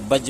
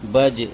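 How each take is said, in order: First: The final consonant ends with no bounce at all. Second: The final consonant ends with a slight bounce. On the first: The speaker calls it wrong. "बज बोलेंगे तो कलकला ही नहीं हुआ" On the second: The speaker calls it right. "सही मिकदार में आवाज़ को जम करनी है"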